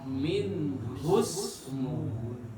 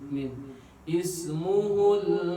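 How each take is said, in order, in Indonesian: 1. Kata-katanya disambung, i-nya hilang. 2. Kata-katanya dipisah, ismuhu dimulai dengan i. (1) "kalau dibacanya jatuh disambungkan dengan minhu ya, maka alifnya jadi hilang" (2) "Kalau dibacanya secara terpisah, maka alifnya dibaca kasrah"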